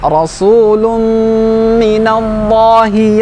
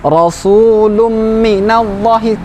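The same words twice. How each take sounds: First: It is said with the nasal sound fully held. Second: It is said quickly with the nasal sound rushed. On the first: The speaker calls it right. "Sempurnakan dengungnya" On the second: The speaker calls it wrong.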